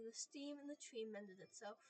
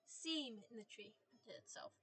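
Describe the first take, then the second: First: "steam" said with a t, stiim; "steam" instead of seam; misread. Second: "Seam" said clearly as seem, slow; slow careful fix to "Seam"; "Seam" stressed, no t; corrected word. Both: Shown as a demonstration.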